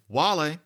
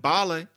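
First: The word begins with a W sound. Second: The word begins with a B sound. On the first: This is the older Latin pronunciation. "you're putting your lips almost together with the w" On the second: This is a later stage of Latin. "people were pronouncing it b"

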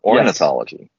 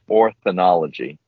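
First: The 'th' sound comes after the 'n' sound. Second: The 'th' sound comes before the 'n' sound. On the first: The speaker calls it right. "and it's ornithology" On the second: The speaker calls it wrong. "I mispronounce this word for a good 24 hours... I got the TH before the NI"

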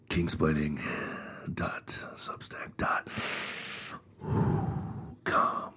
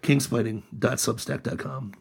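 First: It is said in an excited, suggestive tone. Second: It is said plainly, in a normal tone.

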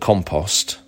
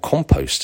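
First: The word has a British pronunciation. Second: The word has an American pronunciation.

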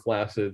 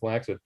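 First: The middle consonant is an s sound. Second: The middle consonant is a k sound. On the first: The speaker calls it right. "the s sound is much better for flaccid" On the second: The speaker calls it wrong. "than the k sound for flaccid"

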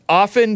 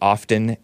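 First: The T sound in the middle is silent. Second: The T sound in the middle is pronounced. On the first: The speaker calls it right. "no, the T is silent" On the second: The speaker calls it wrong. "some people pronounce it often demonstrated"

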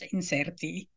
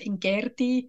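First: It is said with the later Latin pronunciation. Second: It is said with the classical Latin pronunciation. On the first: "if it's a later Latin" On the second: "if you pronounce it in the classical Latin"

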